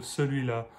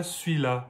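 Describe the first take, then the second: First: Said in the usual way. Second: "celui-là" contracted to "sui-là"; Marseille contraction. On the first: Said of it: "instead of celui-là". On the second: Shown as a demonstration. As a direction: say "celui-là" as swee-la, dropping the "l" of "lui". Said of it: "it turns into suis".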